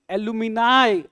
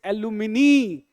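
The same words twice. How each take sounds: First: "एलुमिनाई" loud, ending in an eye sound; correct pronunciation. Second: "एलुमिनी" ending in a long nee; mistaken pronunciation. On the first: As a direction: model "एलुमिनाई" firmly with final -nai. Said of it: "बोलो". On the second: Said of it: "तो ये बोलते हैं". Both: Shown as a demonstration.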